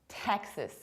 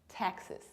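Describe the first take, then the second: Both takes have the same delivery.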